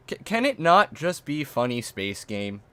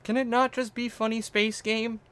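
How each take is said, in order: First: Said in the usual way. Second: Very high put-on pleading voice; mock plea. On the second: Streamer pleading about the game, high mock whine. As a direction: plead in a high, silly little voice.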